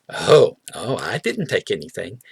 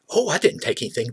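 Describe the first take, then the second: First: It is said in a hesitant, guilty-sounding way. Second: It is said in a plain, sincere way. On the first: Something was actually taken. "but you might say it like this" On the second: Nothing was taken. "you could have somebody say"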